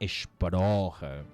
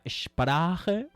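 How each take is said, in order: First: The stressed vowel sounds like an O. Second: The stressed vowel is an open A sound. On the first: This is how Austrians say it. "dirían en pronunciación austriaca Sprache, con O" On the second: This is standard German. "la palabra alemana Sprache"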